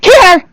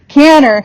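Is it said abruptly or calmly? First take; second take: abruptly; calmly. First: It is said abruptly and loudly. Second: It is said calmly and gently.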